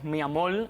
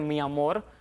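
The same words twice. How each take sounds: First: The final R sounds like an L, Cuban style. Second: The final R is a clear R sound.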